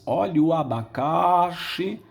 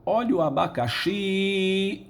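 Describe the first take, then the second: First: The stress falls on a syllable other than xi. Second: The stress falls on the last syllable, xi. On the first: The speaker calls it wrong. "Ninguém diz" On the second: The speaker calls it right. "o xi é a sílaba tônica"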